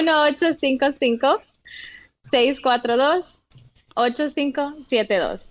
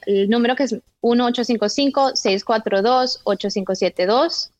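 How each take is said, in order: First: The number is read out slowly. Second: The number is read out fast.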